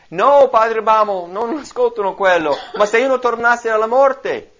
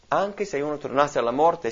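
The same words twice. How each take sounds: First: Loud, high desperate objection; insist, raised and pleading; preacher voicing the rich man's last loud plea. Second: Said in the usual way. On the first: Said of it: "esclamò".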